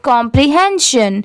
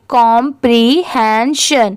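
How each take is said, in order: First: The word is said quickly in one go. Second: The word is said slowly, part by part.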